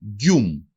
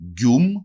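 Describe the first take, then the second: First: Teacher demo of γκιούμ; example word. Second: Γκιούμ again, soft palatal g; teacher repeats γκιούμ. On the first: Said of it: "Παράδειγμα". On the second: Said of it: "μαλακή μορφή του γράμματος Γ". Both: Shown as a demonstration.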